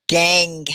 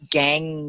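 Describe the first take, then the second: First: "Gang" ending on a held back-tongue ng; ng demo. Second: "Gang" said softer and lower, ng ending stressed; softer ng demo. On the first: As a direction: model "Gang" clearly, ng held at the end. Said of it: "Can you all say it?". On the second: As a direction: repeat "Gang" gently, lingering on the ng. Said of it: "hard to say that N G at the end". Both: Shown as a demonstration.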